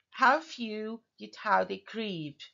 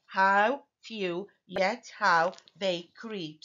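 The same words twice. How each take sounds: First: Slow line with weight on "few" and "creep"; iambic example reading. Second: "How few, yet how they creep" slowly, each syllable set apart. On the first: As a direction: read "How few, yet how they creep" as measured verse. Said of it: "this is just an example". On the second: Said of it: "So I have six syllables here". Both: Shown as a demonstration.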